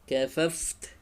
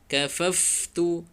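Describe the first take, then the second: First: The word ends on a bare final consonant. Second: The word ends with a short final vowel. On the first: The reciter stops at this word. "kalau berhenti harus disukunkan huruf terakhirnya" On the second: An easier option for practice. "boleh dihidupkan huruf terakhir"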